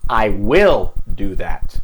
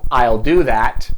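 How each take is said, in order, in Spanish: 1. 'Will' se dice completo y con énfasis. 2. 'Will' se contrae, sin énfasis especial. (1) "estoy poniendo énfasis" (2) "no estoy poniendo énfasis, es una oración normal"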